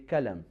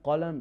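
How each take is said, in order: First: It starts with a front k sound. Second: It starts with a deep uvular q sound.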